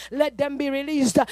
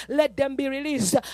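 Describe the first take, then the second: No difference in how they are said.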